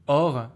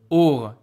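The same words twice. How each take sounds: First: The vowel is an open O sound. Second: The vowel is a closed O sound. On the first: The speaker calls it right. "or is very smooth" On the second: The speaker calls it wrong. "it seems sounds a bit difficult"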